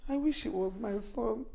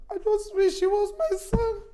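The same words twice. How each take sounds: First: Low, subdued wishing; wistful lament. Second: Higher, emphatic lament; anguished wish. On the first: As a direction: murmur a regretful wish to yourself. Mother laments, envying another's son. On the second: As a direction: press the wish out with feeling. Mother repeats wish with more force. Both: Acted.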